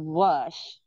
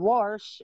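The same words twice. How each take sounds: First: It is said with a standard pronunciation. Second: It is said with a Southern pronunciation. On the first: This is how others usually say it. "instead of wash" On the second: This is how the speaker grew up saying it. "I grew up saying wash"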